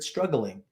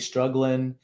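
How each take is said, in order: First: The final g sound is fully pronounced. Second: The final g sound is dropped. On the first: "he said struggling. And that is the full word" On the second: "he didn't say struggling"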